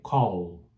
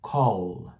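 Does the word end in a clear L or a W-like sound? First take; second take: clear L; clear L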